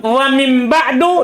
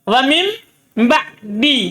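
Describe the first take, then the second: First: The last word ends with a u vowel. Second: The last word ends with an i vowel. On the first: This is the usual reading found in the Quran. "dia baca dhamma" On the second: This is an alternative reading that implies an omitted word. "Dia baca kasroh tanpa tanwin"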